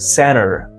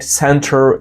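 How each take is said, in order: First: The T after N is dropped. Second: The T after N is pronounced. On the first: "if you want to sound more native" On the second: "It's not"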